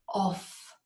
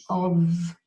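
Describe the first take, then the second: First: Of said as OFF, with an F sound; of with an F at the end; wrong of. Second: Of said as UV, ending in a voiced V; of as UV, vocal cords vibrating; correct of. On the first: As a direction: demo the mistake: of as OFF. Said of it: "Off would be O F F". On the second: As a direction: model of with a buzzing V. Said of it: "a V sound with your vocal cords vibrating". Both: Shown as a demonstration.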